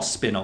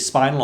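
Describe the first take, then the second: First: "spinal" said as SPIN-ul; short-i pronunciation. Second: "spinal" said as SPY-nul; long-i pronunciation. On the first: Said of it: "they never actually say it out loud". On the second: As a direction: say "spinal" with the vowel of spine. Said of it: "how do you pronounce that". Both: Shown as a demonstration.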